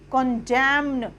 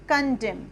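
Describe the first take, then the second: First: The final n sound is pronounced. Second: The final n sound is silent. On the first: The speaker calls it wrong. "कंजैम्न नहीं होगा" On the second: The speaker calls it right. "एन हमारा silent है, तो इसको हम बोलेंगे कंजेम"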